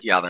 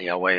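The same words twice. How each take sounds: First: The middle consonant is pronounced as a V. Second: The middle consonant is pronounced as a W. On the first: The speaker calls it right. "that is actually spelled YHVH in the Tetragrammaton, not W. The V came first" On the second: The speaker calls it wrong.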